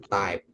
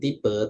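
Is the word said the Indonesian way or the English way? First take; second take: English; Indonesian. First: It is said like the English word type. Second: It is said like the Indonesian word tipe. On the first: The speaker calls it right. "tapi type" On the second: The speaker calls it wrong. "Bukan tipe"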